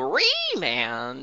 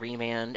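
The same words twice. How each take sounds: First: The word is pronounced in an odd, unusual way. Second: The word is pronounced in the usual way. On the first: It imitates how one streamer said it. "he would pronounce things very strangely. So, like, he would go" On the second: It is how most people say it. "people say Remand"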